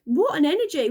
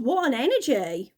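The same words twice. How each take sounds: First: "What an energy" thrown out with a punch on "What"; emphatic repeat. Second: Said in the usual way. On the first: Real, not acted. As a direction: lean into "What" with amused disbelief. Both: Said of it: "oh God".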